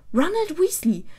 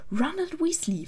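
First: High, loud angry shout of a full name; yelling. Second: High-pitched stern call by full name. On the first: Hermine yells at sleeping Ron, high and loud. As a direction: bellow his full name to wake him. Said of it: "brüllte Hermine ihn an". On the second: Hermine pulls Ron up for teasing Harry, stern. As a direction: scold him sternly by his full name. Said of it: "in einem strengen Ton". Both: A narrator's reading.

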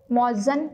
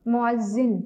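First: मुअज्जन said with a short a sound in the last syllable, mo-az-zan; the mistaken reading मुअज्जन, ending in -zan; demonstrating the common error मुअज्जन with a plain 'a' at the end; wrong pronunciation. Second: मुअज्जिन said with a clear 'i' in the last syllable, mu-az-zin; the right reading मुअज्जिन, ending in -zin; teacher modelling मुअज्जिन carefully with the 'i' sound; correct pronunciation. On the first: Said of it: "जो दुरुस्त नहीं है". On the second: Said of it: "इसका तलफ़ुज़ है". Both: Shown as a demonstration.

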